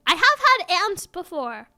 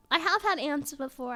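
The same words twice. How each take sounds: First: Blurted out loud, proudly; loud admission. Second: Said in the usual way. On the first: Shown as a demonstration. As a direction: announce it loudly.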